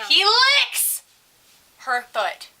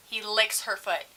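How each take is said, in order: First: High, loud burst on "licks"; scandalized reveal. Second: Said in the usual way. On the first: Real, not acted. Teller revealing what the kid did, loud and scandalized. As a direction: blurt "licks" high, then drop for the rest. Climax of story, then repeated.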